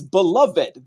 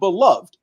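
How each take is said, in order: First: The word has three syllables, ending in '-ed'. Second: The word has two syllables, ending in a 'd' sound. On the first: The speaker calls it right. "That the E D should be pronounced" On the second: The speaker calls it wrong. "it is not beloved"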